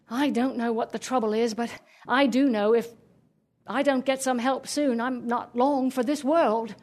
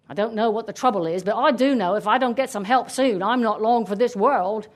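First: Put-on genteel English-accented dog, plaintive. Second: Put-on rough English-accented tree, grumbling. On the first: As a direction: lament politely in an English accent. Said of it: "the dog spoke with an English accent". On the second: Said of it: "the tree spoke with an English accent". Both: A narrator's reading.

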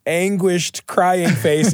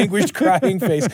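First: Mock anguished crying. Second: Giggling through a fake wail; hammed-up crying face, laughing; laughing mock anguish. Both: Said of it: "Great job rendering those emoji".

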